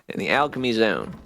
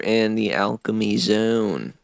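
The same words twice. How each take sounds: First: It is said in a normal speaking voice. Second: It is said in a put-on character voice. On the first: The speaker calls it right. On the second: The speaker calls it wrong.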